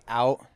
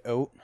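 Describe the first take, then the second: First: Said in the usual way. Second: Canadian vowel in "out", rounded to "oat"; "out" pronounced like "oat", Canadian style. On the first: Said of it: "they say out". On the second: Shown as a demonstration. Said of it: "they're like, "Oat".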